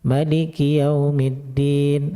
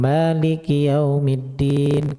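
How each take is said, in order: First: The vowel after the m is cut short. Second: The vowel after the m is held long.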